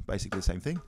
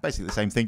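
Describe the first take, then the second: First: Quiet aside. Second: Said in the usual way. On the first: Shown as a demonstration.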